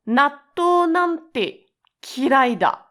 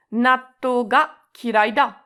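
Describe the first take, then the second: First: High, slow and loud disgust at natto. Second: Said in the usual way. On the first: Shown as a demonstration. Teacher demoing hatred of natto, disgusted. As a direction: spit it out like you hate it. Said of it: "to emphasize your disgust towards natto". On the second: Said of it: "you're not putting any emotions in it".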